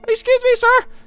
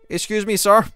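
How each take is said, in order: First: It is said in a high-pitched voice. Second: It is said in a normal-pitched voice. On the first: "And a high, ... because it has to be a high-pitched voice" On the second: "as a rat would say"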